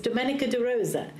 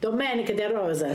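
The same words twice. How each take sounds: First: The name is said in an English accent. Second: The name is said in an Italian accent.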